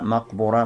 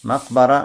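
First: The middle vowel is u. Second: The middle vowel is a. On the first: "Три варианта" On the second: "Можно говорить макбара"

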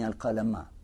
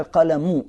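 First: The word ends with an 'a' vowel. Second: The word ends with a 'u' vowel. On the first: Right after creating the pen, it was told to write. "с «фатхой»" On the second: The pen was the very first thing created. "первый вариант понимания"

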